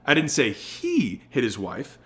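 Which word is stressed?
he. The word "he" is stressed.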